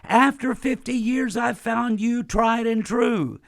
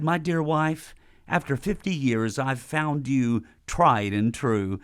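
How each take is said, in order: First: It is said loudly. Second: It is said at normal volume.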